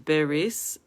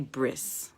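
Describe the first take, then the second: First: A short vowel separates the b and the r. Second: The b runs straight into the r. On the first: "the proper pronunciation is beris" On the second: "Most people say bris"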